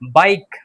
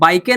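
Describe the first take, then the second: First: The word ends on the k with no vowel. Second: A final vowel sound is pronounced after the k. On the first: The speaker calls it right. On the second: The speaker calls it wrong.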